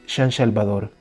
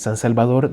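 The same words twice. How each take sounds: First: The S sounds are hushing sh sounds. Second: The S sounds are plain hissing s sounds. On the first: "transformaba el sonido de la S en una sh" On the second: "en vez de decir"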